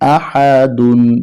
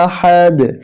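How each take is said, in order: First: The word ends with an extra -un syllable. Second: The word ends abruptly on the final consonant. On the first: The reading continues without stopping. "দাল দুই পেশ দুন" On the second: The reader stops at this word. "যখন এখানে থেমে যাব তখন উচ্চারণটা হবে আহাদ"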